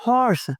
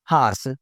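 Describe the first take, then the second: First: First हॉर्स with a rounded "o", "hors"; correct pronunciation. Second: हॉर्स with an open "aa", "haars"; mispronunciation. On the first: (हॉर्स में गोल "ऑ") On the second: (हॉर्स को "हार्स" बोलें) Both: Shown as a demonstration. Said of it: "नहीं यार".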